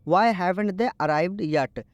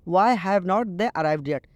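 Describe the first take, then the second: First: "Have not" is contracted into one word. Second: "Have not" is said as two full words.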